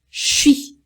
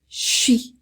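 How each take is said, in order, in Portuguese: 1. Ele é reduzido a uma só sílaba. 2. Ele é reduzido a uma só sílaba.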